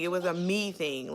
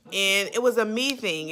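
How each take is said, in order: First: 把 "me" 重读，句尾下降，声音放轻; stress on me. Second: 把 "was" 重读，句尾下降，稍大声; stress on was. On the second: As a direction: lean hard on "was", falling at the end, a bit louder. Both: Shown as a demonstration.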